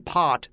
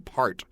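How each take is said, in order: First: The r sound in the word is dropped. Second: The r sound in the word is pronounced. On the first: "they wouldn't say pot" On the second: "they'd say part"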